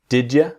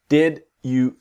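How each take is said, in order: First: The word you is reduced to ya. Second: The word you is said in full.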